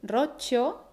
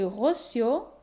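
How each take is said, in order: First: It has a long stressed ro and chi sound. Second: It has a Portuguese R and a double S.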